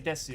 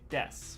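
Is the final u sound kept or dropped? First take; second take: kept; dropped. First: The final u sound is fully pronounced. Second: The final u sound is dropped. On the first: "you don't say desu" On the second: "you say des, ... the u part gets cut off"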